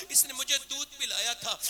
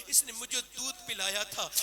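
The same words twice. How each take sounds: First: "اس نے مجھے دودھ پلایا تھا" said again louder, leaning on "مجھے"; "مجھے" stressed, loud and falling; emphatic repeat. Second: Said in the usual way. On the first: Shown as a demonstration. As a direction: press "مجھے" hard with a falling close. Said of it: "repeats the line louder". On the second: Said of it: "repeats the line".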